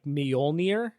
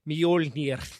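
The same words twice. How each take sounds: First: It is said with English sounds, R not rolled. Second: It is said Icelandic-style with a rolled final R. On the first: "the common like anglified transliteration is like" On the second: "it's pronounced like Mjolnir. ... because they roll their R's at the end"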